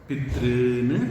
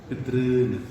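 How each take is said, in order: Both takes have the same delivery.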